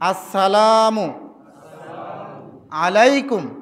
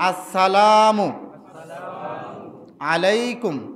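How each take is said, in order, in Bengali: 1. 'Assalam' শেষে স্পষ্ট 'u' ধ্বনি আছে। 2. 'Assalam' শেষে স্পষ্ট 'u' ধ্বনি আছে।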